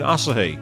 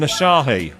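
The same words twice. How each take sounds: First: It is pronounced in a Japanese style. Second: It is pronounced in an English style. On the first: This is how the name is really said. The speaker calls it right. "It's Japanese. It's pronounced Asahi" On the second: This is how the bartender said it. The speaker calls it wrong. "you mean Asahi?"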